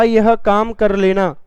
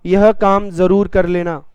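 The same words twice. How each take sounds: First: Said in the usual way. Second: जरूर pressed firmly; stress on जरूर. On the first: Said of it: "और फिर मैंने कहा". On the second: Shown as a demonstration. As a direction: lean on जरूर as an order. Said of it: "विशेष बलता आ रही है". ("जरूर" पर ज़ोर देकर)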